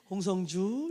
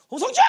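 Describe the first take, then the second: First: Low, gentle name call; alto voice. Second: Sharp high mother's call; soprano shriek. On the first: Shown as a demonstration. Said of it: "그 엘토 좋아해요". (알토로 낮게 부르는 이름) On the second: Retold or imitated. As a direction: imitate a piercing soprano yell of the name. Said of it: "이러면서 소프라노 쫙!". (소프라노처럼 날카롭게 부르는 엄마 흉내)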